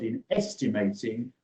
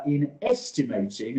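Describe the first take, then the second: First: Said in the usual way. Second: Estimating leaned on, rising; stress on estimating. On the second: Real, not acted. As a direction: lean on the word estimating. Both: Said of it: "and we emphasize that word".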